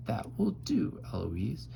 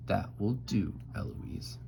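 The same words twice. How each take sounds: First: Eloise mimicking. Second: Restrained warning, name dropped softly; tutore Philip. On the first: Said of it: "And then I say". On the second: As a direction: tutor lightly laying down the law. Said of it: "And then he says". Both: A narrator's reading.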